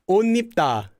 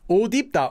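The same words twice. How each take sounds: First: The words are joined with a sound change. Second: The words are joined without any sound change. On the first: "with that sound change roll you're talking about" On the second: "So you get 옷 입, right?"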